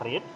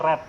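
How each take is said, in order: First: The vowel is long, rhyming with reed. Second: The vowel is short, rhyming with red. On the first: It is the base form of the verb. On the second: It is the past or past participle form.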